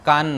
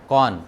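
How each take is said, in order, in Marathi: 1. हा स्वर ओठ गोल न करता म्हटलेला उघडा 'aa' आहे. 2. हा स्वर ओठ गोल करून म्हटलेला 'aw' आवाज आहे. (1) "कान नाही"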